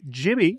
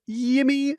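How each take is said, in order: First: The name begins with a J sound. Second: The name begins with a Y sound. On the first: The speaker calls it right. "it is Jimmy from the Jays, not Yimmy from the Yays" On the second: The speaker calls it wrong.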